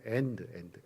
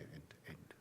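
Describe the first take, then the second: First: Said in the usual way. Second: Whispered. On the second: Shown as a demonstration. Preacher teaching the word end to the congregation, whispered. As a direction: end breathed in an unvoiced whisper. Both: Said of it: "끝은 end이에요".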